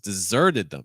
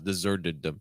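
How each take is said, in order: First: Deserted is raised in pitch and stands out. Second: Deserted is flat and does not stand out. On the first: The speaker calls it right. "So take the pitch higher" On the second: The speaker calls it wrong. "it's kind of getting lost right now"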